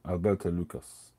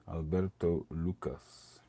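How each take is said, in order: First: Said in the usual way. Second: Slow, drawn-out Italian-accented name. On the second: Shown as a demonstration. Reading the cigar maker's name in a slow Italian accent. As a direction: roll it out like an Italian. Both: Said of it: "it was an Italian accent".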